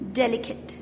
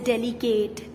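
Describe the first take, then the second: First: The last syllable is short and reduced, like 'kit'. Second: The last syllable is full, like 'kate'. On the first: The speaker calls it right. "skip the e and pronounce it as delicate" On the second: The speaker calls it wrong. "Not as"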